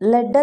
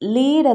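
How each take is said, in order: First: The vowel is a short 'e' sound. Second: The vowel is a long 'ee' sound. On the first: It is the noun naming a metal. "ഇനി നൗണെങ്കിൽ ലെഡ്, ലെഡ് എന്നാണ് ഉച്ചരിക്കുക" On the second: It is the verb meaning to guide. "ഇത് വെർബെങ്കിൽ ലീഡ്, ലീഡ് എന്നാണ് ഉച്ചരിക്കുന്നത്"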